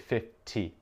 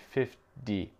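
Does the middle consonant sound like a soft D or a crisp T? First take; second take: crisp T; soft D. First: It has an English accent with a crisp T. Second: The middle consonant sounds like a soft D.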